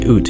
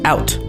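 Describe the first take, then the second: First: The vowel sounds like 'oo', as in 'boot'. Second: The vowel sounds like 'ow', as in 'cow'. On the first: The speaker calls it wrong. "we don't say oot" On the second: The speaker calls it right. "I'm saying it right"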